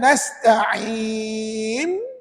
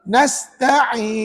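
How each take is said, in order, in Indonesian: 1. Bunyi n akhir dibuat dengan bibir. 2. Bunyi n akhir menggunakan hujung lidah.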